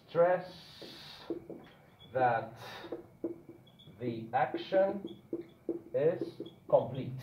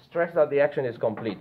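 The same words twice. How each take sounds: First: Slow dictation. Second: Said in the usual way. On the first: Shown as a demonstration. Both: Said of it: "we can stress that one action is complete".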